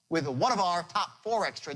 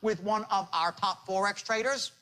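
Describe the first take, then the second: First: It is said with lively, varied tonality. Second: It is said in a flat, even monotone.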